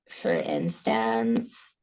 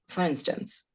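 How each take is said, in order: First: The pitch rises at the end, with creak. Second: The pitch stays level, in a plain voice. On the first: "is obviously a classic up talk with a little sprinkle of fry and pitch up" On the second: "in my normal speech, I would say, for instance, and that's a plateau"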